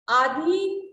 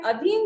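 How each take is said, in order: First: आधीन with a long "aa" at the front, loud; आधीन announced loudly with a drawn first vowel; wrong pronunciation. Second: अधीन with a short first vowel, "a-dheen"; correct pronunciation. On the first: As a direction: stretch the start: "AA-dheen". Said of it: "अशुद्ध है". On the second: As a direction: begin अधीन on a quick short "uh". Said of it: "अधीन सही है". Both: Shown as a demonstration.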